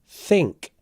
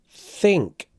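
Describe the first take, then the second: No difference in how they are said.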